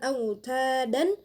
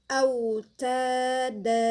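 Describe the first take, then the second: First: The word ends with a short vowel plus n. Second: The word ends with a vowel held two counts. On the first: The speaker calls it wrong. "bukan auta dan" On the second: The speaker calls it right. "danya dua harokat"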